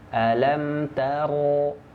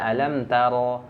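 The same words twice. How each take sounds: First: The r sound is thick and resonant. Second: The r sound is thin and weak. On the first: The speaker calls it right. "Bergema bulat" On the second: The speaker calls it wrong. "itu lemah, ya. Jadi suara tebalnya kurang"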